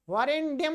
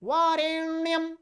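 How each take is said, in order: First: वरेण्यम said with a hard retroflex ड sound, vareṇḍyam; wrong pronunciation. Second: वरेण्यम with a clean nasal ण and no ड sound; correct pronunciation. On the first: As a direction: show the mistake: वरेण्यम with a d-like ड after the ण. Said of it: "वरेण्यम नहीं". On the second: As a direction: say वरेण्यम carefully, ण flowing straight into य. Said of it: "ना, ना, वरेण्यम।". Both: Shown as a demonstration.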